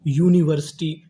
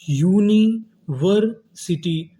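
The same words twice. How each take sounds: First: Said in the usual way. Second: university split slowly as uni, वर, city; syllable-by-syllable. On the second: Shown as a demonstration. Teacher building university for students, slow and split. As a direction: pause between the parts of university. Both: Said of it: "तो meaning क्या बनी".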